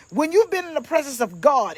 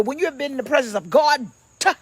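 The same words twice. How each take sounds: First: "God" without a released d. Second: "God" ending in a hard popped d; "God" with an exploded "-tuh" ending. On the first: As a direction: lean on the G in "God", let the d drop. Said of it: "it's with a G". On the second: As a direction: spit out the final d of "God" as its own beat. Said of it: "with a D". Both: Shown as a demonstration.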